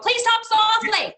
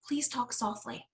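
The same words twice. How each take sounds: First: The phrase is spoken loudly, almost screamed. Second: The phrase is spoken quietly and gently. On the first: The request contradicts itself by matching the yelling. The speaker calls it wrong. "and scream at them" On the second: The request matches the calm it asks for. The speaker calls it right. "and you say it softly yourself"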